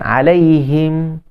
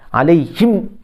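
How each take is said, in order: First: The final m is between pressed and released. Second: The final m is pressed hard and clipped. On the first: The speaker calls it right. "tawassut dia pertengahan" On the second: The speaker calls it wrong. "syiddah ni maksud tekan"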